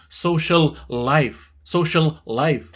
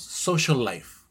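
First: Slow "social life", each L said separately; doubled L. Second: "social life" run together on one L; joined L. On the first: Teacher showing what not to do, words separated. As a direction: split SOCIAL from LIFE with two distinct L sounds. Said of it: "no vamos a decirlo dos veces". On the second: Teacher showing how words join, linked pronunciation. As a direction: glide from SOCIAL straight into LIFE. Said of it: "Simplemente lo unimos". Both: Shown as a demonstration.

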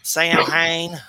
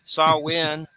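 First: SAM HAIN loud, as two words, "sam-hayn"; Georgia-style mispronunciation. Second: SAMHAIN said "SAH-win", silent m; correct Samhain. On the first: Host from Georgia joking, "Sam Hain" mispronounced loudly. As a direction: hit "Sam Hain" as spelt, Southern-style. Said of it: "I'm from Georgia". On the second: Host setting it against his Georgia way, Samhain as "SAH-win". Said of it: "That's not how you say it". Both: Shown as a demonstration.

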